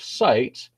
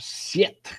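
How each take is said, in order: First: The vowel is the modern long 'eye' sound. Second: The vowel is a short 'i' sound. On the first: This is how the word sounds today. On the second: This is how the word sounded before the Great Vowel Shift.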